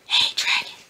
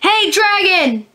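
First: It is whispered very softly. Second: It is shouted very loudly.

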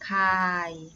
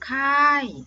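First: The syllable has a low tone. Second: The syllable has a falling tone. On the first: "ไม้เอกขาย" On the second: "ไม้โทค่าย"

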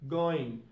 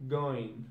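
No difference in how they are said.

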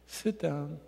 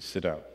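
First: It is said softly, like a gentle suggestion. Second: It is said sharply, like a firm order. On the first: It is a polite invitation. The speaker calls it wrong. "We don't say" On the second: It is an order that must be obeyed. The speaker calls it right. "We say"

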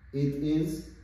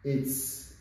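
First: Two full words are said separately. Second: The words are joined into one short syllable. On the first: "These are the short forms" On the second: "These are the short forms"

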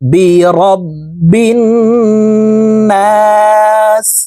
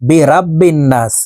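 First: The vowel after r is short. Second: The vowel after r is drawn out long. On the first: The speaker calls it right. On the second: The speaker calls it wrong.

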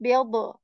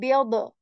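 Both takes have the same delivery.

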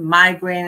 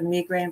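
First: It is said in an American accent. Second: It is said in her South African accent.

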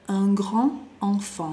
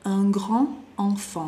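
First: Grand joins enfant with a d sound. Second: Grand joins enfant with a d sound.

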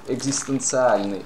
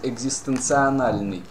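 First: The word ends in -tsialny, without an extra syllable. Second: The word ends in -tsionalny, with an extra syllable.

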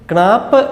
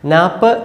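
First: The word starts with a k sound before n. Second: The word starts with n, no k sound. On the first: This is how local speakers said the name. "മലയാളികൾ ക്ണാപ്പ് എന്ന് തന്നെ ഉരുവിട്ടുകൊണ്ടിരുന്നു" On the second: This is how English speakers said the name. "നാപ്പ് എന്നാണ് ഇംഗ്ലീഷുകാർ ഉച്ചരിച്ചിരുന്നത്. കേക്ക് ശബ്ദമില്ലായിരുന്നു"

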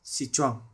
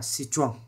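No difference in how they are said.

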